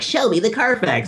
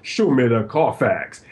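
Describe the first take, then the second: First: It is said in a higher, lighter voice. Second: It is said in a deep, low voice. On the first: "he got the new voice of like" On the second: "the Fox actually had a deeper voice"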